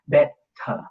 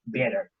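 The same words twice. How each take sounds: First: The t is a stop with a puff of air. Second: The t is a short quick flap. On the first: "Is aspiration like also the first time" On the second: "the tendency toward Northern American flap"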